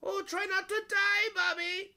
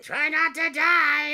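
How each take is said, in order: First: Much higher, loud cheerful warning; bright high call, louder without menace; friendly yell. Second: Much higher, loud, slow manic threat; screamed villain line, drawn out; Mark Hamill Joker. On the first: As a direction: yell it kindly, not mean. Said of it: "a little more like yelling". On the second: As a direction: menace them like the Joker. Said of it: "sounded very, uh, Mark Hamill Joker". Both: Retold or imitated.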